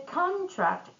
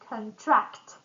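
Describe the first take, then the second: First: The stress is on the first syllable. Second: The stress is on the second syllable. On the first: It is used as a noun. "If we put the stress on first syllable in both words, it's going to be a noun" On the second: It is used as a verb. "when we put the stress on the second syllable, it's going to be a verb"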